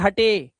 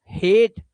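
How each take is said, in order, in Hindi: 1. यह दो अक्षरों में पढ़ा जाता है, 'ay' पर खत्म होता है। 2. यह 'ay' के साथ एक अक्षर में पढ़ा जाता है।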